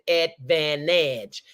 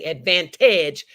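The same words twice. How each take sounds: First: The word is said with no T sound. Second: The word is said with a clear T sound. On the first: The speaker calls it right. "No T is in my word" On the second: The speaker calls it wrong. "I didn't say advantage"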